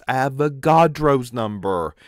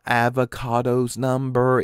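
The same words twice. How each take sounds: First: Avogadro is not pronounced like avocado. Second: Avogadro is pronounced like the word avocado. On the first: The speaker calls it right. "it's Avogadro's number" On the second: The speaker calls it wrong. "Avogadro came out just like avocado"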